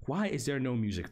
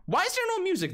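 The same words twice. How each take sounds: First: Said in the usual way. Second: Squeaky complaint. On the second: Real, not acted. Comic high complaint.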